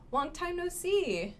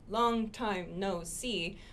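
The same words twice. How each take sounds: First: Long time no see run together, higher, smooth; words linked. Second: Long time no see said slowly, each word apart; slow, separated words. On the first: Teacher showing the right way, words joined. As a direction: connect long time no see in one quick flow. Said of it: "but make it". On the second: Teacher showing the wrong way, slow and separate. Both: Shown as a demonstration.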